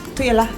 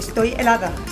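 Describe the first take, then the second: First: Sounds are dropped and the words are shortened. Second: Every sound of the words is pronounced fully. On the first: "Acortamos mucho las palabras" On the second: "en vez de decir"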